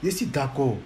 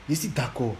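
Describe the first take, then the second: No difference in how they are said.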